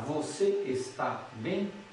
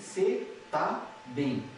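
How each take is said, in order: First: Every syllable of the phrase is said in full. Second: The phrase is shortened, with syllables dropped. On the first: "Não vou falar" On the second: "Veja só como encurtou"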